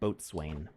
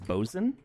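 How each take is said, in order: First: It is said in full, like boat-swain. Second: It is said short and clipped, like bosun. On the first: This is how the spelling looks. "but it looks like boatswain" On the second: This is how sailors actually say it. "I think it's bosun"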